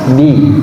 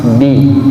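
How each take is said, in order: The two takes are said the same way.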